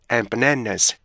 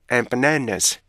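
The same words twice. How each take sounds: The two takes are said the same way.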